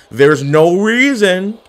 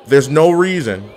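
First: Drawn-out, rising dismay; slow dismay. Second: Said in the usual way. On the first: Acted. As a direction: stretch it out in disbelief.

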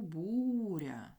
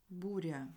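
First: "буря" with a long, drawn-out БУ; slow stress demo, БУУ-ря; stressed first syllable. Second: Said in the usual way. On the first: Shown as a demonstration. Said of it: "Наголос у буря".

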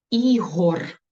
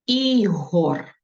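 First: Slow, clear dictation of Ігор; teacher reads Ігор for dictation, each sound clear. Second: Ігор repeated slowly for writing; dictation repeat. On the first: Teacher dictating to pupils, clear and deliberate. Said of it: "Перше слово". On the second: Teacher repeating the word for pupils, deliberate. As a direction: say Ігор again, deliberate and even. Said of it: "Записуємо". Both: Shown as a demonstration.

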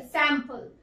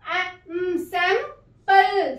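First: Said in the usual way. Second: sample split slowly as सैं-पल; slow sounding out. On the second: Shown as a demonstration. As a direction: draw sample out syllable by syllable. (Sample को धीरे धीरे टुकड़ों में बोलिए) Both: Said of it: "अपनी short sound देगा".

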